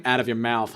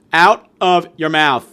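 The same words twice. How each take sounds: First: Said in the usual way. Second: "Out of your mouth" repeated louder and slower, every word hammered; slow emphatic repeat. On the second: Real, not acted. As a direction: drive each word of "Out of your mouth" home as a warning.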